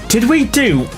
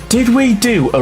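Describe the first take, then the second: The two takes are said the same way.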